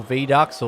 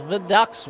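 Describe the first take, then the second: First: Vidux with a long ee first; full "vee" opening on Vidux. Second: Vidux with a short, unstressed "vuh" first; reduced first vowel in Vidux. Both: Shown as a demonstration. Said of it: "however you wanna say it".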